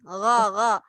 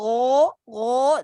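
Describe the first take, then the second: First: The vowel is said with open, unrounded lips. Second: The vowel is said with rounded lips. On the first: The speaker calls it right. "मुंह थोड़ा सा खोलना है, लेकिन गोल नहीं करना" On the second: The speaker calls it wrong. "गोल नहीं करना। गो गो नहीं"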